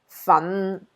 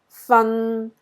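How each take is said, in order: First: It is said with Cantonese tone five. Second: It is said with Cantonese tone three.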